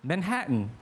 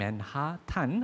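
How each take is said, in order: First: It is said with the American pronunciation, 맨해튼. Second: It is said following the Korean spelling, 맨하탄. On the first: The speaker calls it right. "원래 발음은 맨해튼. 근데 이거는 미국식 발음" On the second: The speaker calls it wrong. "우리나라는 한글로 그렇게 쓰잖아요"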